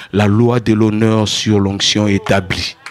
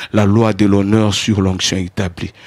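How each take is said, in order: The two takes are said the same way.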